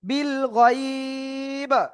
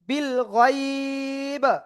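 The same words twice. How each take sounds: No difference in how they are said.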